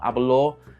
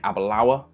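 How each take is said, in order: First: The name ends with an 'or' sound. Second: The name ends with an 'awa' sound. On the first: The speaker calls it wrong. "I get a lot of things wrong, namely the pronunciation" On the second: The speaker calls it right. "when you really want to be saying Abalawa"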